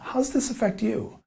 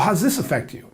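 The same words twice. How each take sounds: First: The question sounds soft and curious. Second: The question sounds blunt and challenging. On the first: The listener feels invited to share. The speaker calls it right. "you're getting them to really open up" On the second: The listener feels put on the spot. The speaker calls it wrong. "they're gonna react to that"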